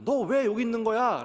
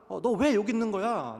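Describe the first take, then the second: First: Higher, louder scolding parent; frantic parent scolding a lost boy. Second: Higher, louder scolding mother; mother Mary scolding her son. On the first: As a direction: demand where the child went. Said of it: "라고 부모가 얘기했을 때". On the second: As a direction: snap at the lost child. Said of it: "라고 어머니". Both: Retold or imitated.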